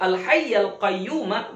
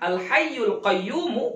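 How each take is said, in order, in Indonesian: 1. Kedua kata berakhir dengan vokal 'a'. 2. Kedua kata berakhir dengan vokal 'u'. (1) "baris atas" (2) "baris depan"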